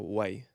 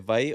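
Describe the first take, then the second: First: The word begins with a W sound. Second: The word begins with a V sound. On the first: "or a wa" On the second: "the W can be pronounced as a V"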